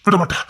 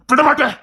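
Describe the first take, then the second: First: Said in the usual way. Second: Hammed-up vengeful father; angry vow. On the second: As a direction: swear it with rising anger. Vow repeated, raised.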